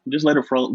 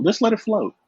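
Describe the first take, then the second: First: Said in the usual way. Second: Higher, sing-song "Just let it flow"; lilting repeat. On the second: Shown as a demonstration. Guest repeating the tip to the host, higher and lilting. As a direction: float it up high and easy. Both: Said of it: "ain't gotta put too much emphasis".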